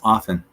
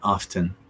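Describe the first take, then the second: First: The T sound is silent. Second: The T sound is pronounced. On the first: The speaker calls it right. "The T is basically silent, so it's often" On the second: The speaker calls it wrong. "not often"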